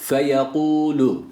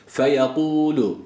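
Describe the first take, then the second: No difference in how they are said.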